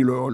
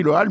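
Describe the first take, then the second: First: "hall" said as "ol", with a rounded o; "hall" pronounced "ol", not "al"; proper pronunciation. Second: "hall" said as "al", open a with the h silent; "hall" pronounced "al", like the spelling; spelling pronunciation. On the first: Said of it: "mais on dit le hall". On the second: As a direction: read "hall" the way it is written, "al". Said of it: "Ça s'écrit le hall". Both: Shown as a demonstration.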